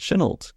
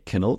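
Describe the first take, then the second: First: The name begins with an SH sound. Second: The name begins with a hard K sound. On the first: The speaker calls it right. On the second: The speaker calls it wrong. "you don't say Kinnault because it's wrong"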